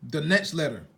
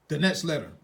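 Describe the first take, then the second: No difference in how they are said.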